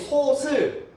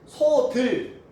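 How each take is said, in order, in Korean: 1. 두 번째 음절은 s 소리로 시작합니다. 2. 두 번째 음절은 d 소리로 시작합니다. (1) "다 틀린 발음" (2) "다 틀린 발음"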